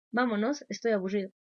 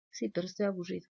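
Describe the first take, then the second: First: Un poco agudo, quejándose; niño quejoso. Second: Voz de niño más baja y cansina; niño terco. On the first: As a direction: imita al hijo que quiere irse. Hijo pide irse de la fiesta. (niño quejoso en el cumpleaños) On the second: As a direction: imita al niño que insiste aburrido. Hijo insiste que está aburrido. (niño terco y desganado) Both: Retold or imitated.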